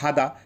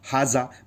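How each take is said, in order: First: The middle consonant is not a z sound. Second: The middle consonant is a z sound. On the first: This is the form common in the Gulf countries. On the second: This is the form used in many other countries.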